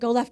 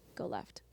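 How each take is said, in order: First: It is said loudly and insistently. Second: It is said quietly and softly.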